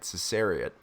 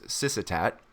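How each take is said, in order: First: The name is said like ses-ar-ee-ot. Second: The name is said like sis-si-tat. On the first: The speaker calls it wrong. "I went and kept doing that Cesariot" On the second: The speaker calls it right. "the word on the page is Syssitat"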